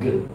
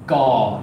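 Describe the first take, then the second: First: The consonant is said pure, with no vowel. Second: A short schwa vowel follows the consonant. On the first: The speaker calls it right. "instead of g" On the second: The speaker calls it wrong. "That's the equivalent of doing the ga"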